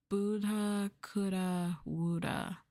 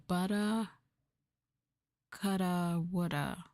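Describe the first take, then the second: First: "Buddha, coulda, woulda" as booda, cooda, wooda; slow, spaced "Buddha" with a long oo; rhyming long oo. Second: "Buddha, coulda, woulda" as budda, cudda, wudda; spaced words, "Buddha" rhyming with "udder"; rhyming short uh. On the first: Streamer retrying the phrase, "Buddha, coulda" as booda, cooda. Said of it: "you almost got it right". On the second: Streamer guessing the phrase, "Buddha, coulda" as budda, cudda. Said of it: "who pronounced Buddha as Buddha?". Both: Shown as a demonstration.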